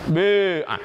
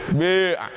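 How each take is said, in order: First: The first vowel is between i and u. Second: The first vowel is between i and u.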